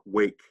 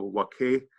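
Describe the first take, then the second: First: The final E is silent, one syllable. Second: The final E is pronounced as a syllable. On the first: "like in English, that first word looks like wake" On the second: "if a word ends in an E, you pronounce the E"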